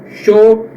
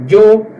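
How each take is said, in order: First: "sho" with a hushing sh. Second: "yo" said "djo", like English "Joe". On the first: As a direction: start "sho" with an unvoiced sh sound. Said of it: "alguns países ele é pronunciado como". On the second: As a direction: start "yo" with a voiced dj sound. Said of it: "um di". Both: Shown as a demonstration.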